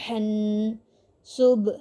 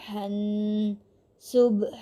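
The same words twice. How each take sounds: Both takes have the same delivery.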